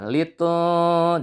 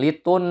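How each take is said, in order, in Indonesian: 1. Bunyi n dibaca samar mendekati m dan ditahan panjang. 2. Bunyi n dibaca jelas dan dipotong pendek. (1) "Dibaca samar nun sukunnya antara suara N dan M. Sambil ditahan" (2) "jangan litun, salah"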